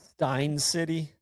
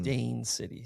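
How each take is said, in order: First: The first word rhymes with 'mine'. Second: The first word rhymes with 'main'. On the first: The speaker calls it wrong. "I said Stein City" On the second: The speaker calls it right. "S T A I N"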